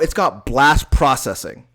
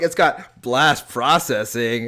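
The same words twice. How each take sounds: First: It is said with hyped, emphatic excitement. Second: It is said flatly, in a casual tone. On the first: It is a big new selling point. "like that, then people are gonna be like, what do you mean by that?" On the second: It is just an ordinary feature. "then no one's gonna think of it like"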